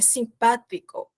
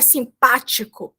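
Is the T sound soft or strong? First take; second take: soft; strong. First: The T is pronounced softly. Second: The T is pronounced strongly. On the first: The speaker calls it right. "O T do espanhol, ele não é tão forte" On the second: The speaker calls it wrong. "Mas aqui não é simpático"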